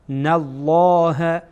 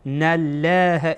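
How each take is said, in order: First: The L is heavy and full. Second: The L is light and thin. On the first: The speaker calls it right. "نالله پر میکنیم" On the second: The speaker calls it wrong. "نالله نمیگیم، نالله، نالله اشتباهه"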